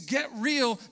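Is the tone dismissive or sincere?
sincere. It is said in a sincere, positive tone. People are being urged to be genuine. The speaker calls it right. "But now we're not saying it that way today"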